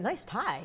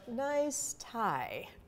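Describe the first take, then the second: First: It is said sincerely, as a real compliment. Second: It is said sarcastically, mocking the tie.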